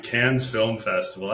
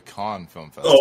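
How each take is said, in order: First: Cannes said like "cans", with a z at the end; English-style "Cannes", short flat a as in "cat"; anglicized pronunciation. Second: Cannes said like "con", silent s; French-style pronunciation. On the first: Real, not acted. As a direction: say "Cannes" to rhyme with "vans". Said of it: "I'm just saying it's called Cannes". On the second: Shown as a demonstration. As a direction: say "Cannes" to rhyme with "on". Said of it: "that's what it's called in France".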